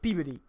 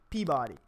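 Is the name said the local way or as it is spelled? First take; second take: local; spelled. First: It is said the way locals say it. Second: It is said just as it is spelled. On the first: This is how people in the town say it. "how people pronounce it here is Peabody" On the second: This is the speaker's own reading of the spelling. "but I say Peabody"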